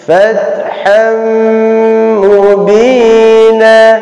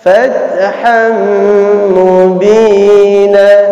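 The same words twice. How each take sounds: No difference in how they are said.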